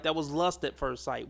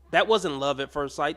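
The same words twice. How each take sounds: First: "lust" punched as the key word; stress on lust. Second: Wasn't hit a little harder, then fall; stress on wasn't. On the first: Host recasting her love story, stress on lust. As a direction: land hard on "lust" to correct her. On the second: Host correcting the woman's story, stress on wasn't. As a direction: lean on "wasn't", denying it was love. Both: Real, not acted.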